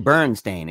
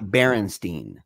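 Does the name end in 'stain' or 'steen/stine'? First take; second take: stain; steen/stine. First: The name ends with a 'stain' sound. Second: The name ends with a 'stine' or 'steen' sound. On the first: The speaker calls it right. "it's actually Berenstain" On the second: The speaker calls it wrong. "not Berenstain"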